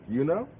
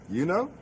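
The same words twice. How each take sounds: The two takes are said the same way.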